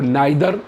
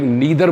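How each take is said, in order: First: It is said with an eye vowel, American style. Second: It is said with an ee vowel, British style.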